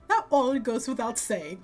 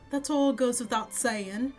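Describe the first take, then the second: First: It is said in an exaggerated put-on character voice. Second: It is said in a plainer, more restrained voice.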